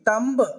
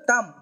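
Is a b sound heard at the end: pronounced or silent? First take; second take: pronounced; silent. First: A b sound is heard at the end. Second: No b sound is heard at the end. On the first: The speaker calls it wrong. "తంబ్ అంటారు, అలా అక్కర్లేదు" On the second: The speaker calls it right. "బి is a silent letter"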